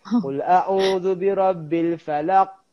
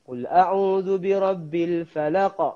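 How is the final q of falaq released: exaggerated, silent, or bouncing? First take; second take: exaggerated; bouncing. First: The final q bounces with an exaggerated burst. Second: The final q is released with a light bounce. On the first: The speaker calls it wrong. "ada juga yang lantun dia over" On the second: The speaker calls it right. "kita kena baca dia lantun"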